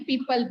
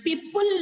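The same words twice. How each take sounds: First: People said crisply as "pee-puhl"; correct pronunciation. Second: People drawn out as "pee-pool"; wrong pronunciation. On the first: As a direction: model people with a plain schwa ending, "pipəl". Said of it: "people बोलते हैं". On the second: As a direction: show the mistake by saying people as "pipʊl". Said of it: "people नहीं बोलते हैं". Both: Shown as a demonstration.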